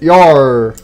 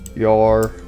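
First: It sounds cheerful and high-spirited. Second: It sounds gloomy and low-spirited.

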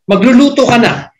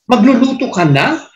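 First: The pitch falls at the end. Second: The pitch rises at the end. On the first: It tells someone to cook now. "You say going down" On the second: It asks whether someone will cook already. "na going up"

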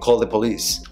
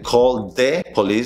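First: The word 'the' is quick with a reduced vowel. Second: The word 'the' is said fully and carefully. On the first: The speaker calls it right. "Ese es un sonido rápido" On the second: The speaker calls it wrong. "en vez de decir"

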